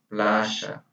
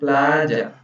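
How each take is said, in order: First: The middle consonant is a 'sh' sound. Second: The middle consonant is a 'y' sound. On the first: This is how it is said in Argentina, Uruguay and Paraguay. "Mas na Argentina, Uruguai e Paraguai seria playa" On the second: This is how it is said in the Caribbean. "Eu, [name], que sou da Venezuela, que sou do Caribe. Eu digo playa"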